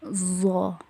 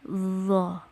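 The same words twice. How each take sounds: First: The consonant is a plain z with tongue behind teeth. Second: The consonant is a soft th-like sound between teeth. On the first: The speaker calls it wrong. "itu salah ya, karena posisi lidahnya tidak nempel ke gigi uh, seri atas" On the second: The speaker calls it right. "lidah itu nempel ke gigi seri atas ... Jadi lembut bunyinya itu"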